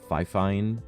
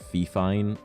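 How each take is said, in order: First: The first syllable sounds like fi. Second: The first syllable sounds like fee. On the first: "or Fi Fine" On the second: "everyone calls it like Fee Fine"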